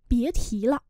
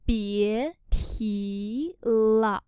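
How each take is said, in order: First: Said in the usual way. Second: Very slow drawn-out teaching pronunciation; slow syllable-by-syllable model. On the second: Shown as a demonstration. Teacher models Chinese phrase for learners, very slowly. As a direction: stretch each syllable, pause between them.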